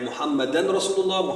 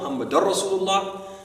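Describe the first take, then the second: First: A clear n sound comes before Rasulullah. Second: The n sound merges into the following r. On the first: "even if you say Muhammadan or Muhammadar, that's fine" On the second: "even if you say Muhammadan or Muhammadar, that's fine"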